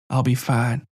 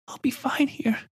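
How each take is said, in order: First: Calm, gentle reassurance. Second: Put-on very high, soft child voice, resigned; a hurting girl pretending she's fine; brave little girl. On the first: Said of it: "still speaking gently". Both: A narrator's reading.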